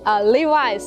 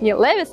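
First: The second syllable sounds like 'eyes'. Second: The second syllable sounds like 'iss'. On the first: The speaker calls it right. "правильно говорить Levi's" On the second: The speaker calls it wrong.

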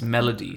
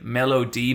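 First: The name is said quickly, as one word. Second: The name is said slowly, in separate parts. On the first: It sounds like the word for a tune. "if you say it fast enough, it's Melody, like music" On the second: It sounds like a nickname plus an initial. "it's like Melody. Maybe his name is like David, so it's like Mellow David"

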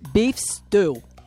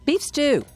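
First: It is said in a Northeastern US accent. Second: It is said in a plain, standard accent.

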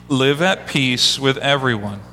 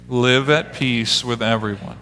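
First: It is read with more energy and liveliness. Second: It is read with ordinary, calm energy.

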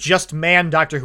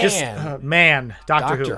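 First: 'Just man' is run together as one phrase. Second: 'Man' is a separate exclamation, set off by a break. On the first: It says the show should only have men. The speaker calls it wrong. "it sounds like just man, Doctor Who, and it makes it sound like I'm I hate women" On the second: It expresses enthusiasm about the show. The speaker calls it right. "you got to say it like that"

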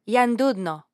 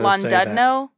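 First: The word begins with a Y sound. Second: The word begins with a plain L sound.

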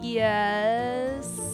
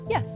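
First: It is slow, strained and twisting. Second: It is light, quick and direct.

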